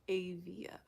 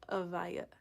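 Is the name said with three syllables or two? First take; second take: two; three. First: The name is said as 'A-via'. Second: The name is said as 'a-VAI-ya'. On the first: The speaker calls it right. "So it's Avia" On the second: The speaker calls it wrong. "not Avaya"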